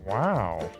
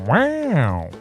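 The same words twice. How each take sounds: First: It is said in a plain, ordinary voice. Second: It is said in a drawn-out imitation voice. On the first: The speaker calls it wrong. "That's not how you say wow" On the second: The speaker calls it right. "That's better. It's like Owen Wilson was in the studio"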